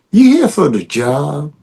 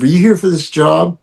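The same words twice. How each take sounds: First: Louisiana accent. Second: Said in the usual way. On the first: Shown as a demonstration. Actor redoing his film line for the director, in a Louisiana accent. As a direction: say it with a Louisiana voodoo flavor. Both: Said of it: "keep the Louisiana thing".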